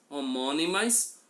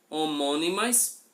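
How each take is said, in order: Both takes have the same delivery.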